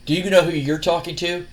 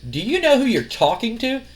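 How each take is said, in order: First: Understated, level echo of her question; cocky retort. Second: Higher-pitched, rising incredulous question; indignant challenge. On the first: Cocky wrestler turns the lady's question back on her, mildly smug. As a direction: lightly imitate a smug wrestler throwing it back. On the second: Wrestler's boss challenges a cocky rival, indignant. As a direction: imitate an affronted woman, pitched up at the end. Stephanie challenges Jericho in acted quarrel. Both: Retold or imitated.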